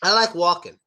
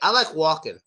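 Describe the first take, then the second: First: The L in walking is dropped, tongue stays down. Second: The same.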